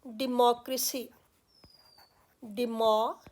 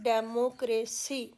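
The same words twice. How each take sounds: First: डेमोक्रेसी starting "di-mo", with "di" not "de"; careful "di-MOK-ri-si"; dictionary pronunciation. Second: डेमोक्रेसी starting "de-mo" with an "e"; Indian-style de-mo-kre-si; common Indian way. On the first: Teacher giving the dictionary डेमोक्रेसी. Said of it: "इसकी pronunciation बताई गई है". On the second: Teacher giving the usual Indian डेमोक्रेसी. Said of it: "इसको हम बोलते हैं". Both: Shown as a demonstration.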